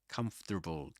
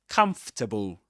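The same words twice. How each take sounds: First: It is said in an American accent. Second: It is said in a Southern British accent. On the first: "it's a bit tricky to pronounce that word in American English" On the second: "That's in this accent in standard Southern British English"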